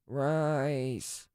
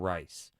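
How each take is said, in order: First: It is said in a slurred, drunken voice. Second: It is said in a calm, sober voice. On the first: The speaker is drunk and craving something. "after a long night of drinking, it sounds more like" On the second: The speaker is simply in the mood for something. "that tone of voice when you are sober"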